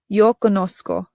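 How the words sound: It is said with a Latin American pronunciation.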